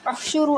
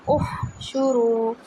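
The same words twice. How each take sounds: First: Quick उह शुरू, ha swallowed into शू; wrong fast उह शुरू to warn the student; rushed wrong take. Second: Slow उह शुरू, हा given full breath; teacher models उह शुरू with a long breathy ha. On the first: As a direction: clip the हा in उह शुरू. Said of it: "तो वो उह शुरू हो जाएगा". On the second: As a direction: let the हा in उह शुरू breathe out fully. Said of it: "उह में हा को पूरा टाइम दें". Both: Shown as a demonstration.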